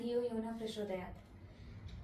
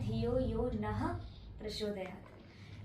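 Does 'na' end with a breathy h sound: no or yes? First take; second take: no; yes. First: The word 'na' ends without a breathy h sound. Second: The word 'na' ends with a breathy h sound. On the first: The speaker calls it wrong. "आपका सुनाई दिया" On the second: The speaker calls it right. "लेकिन वो है"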